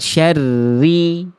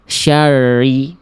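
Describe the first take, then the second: First: The r has a light, moderate trill. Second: The r has no trill at all. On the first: The speaker calls it right. "Ada getarannya tapi nggak berlebihan" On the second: The speaker calls it wrong. "terlampau samar. Getarannya malah nggak ada"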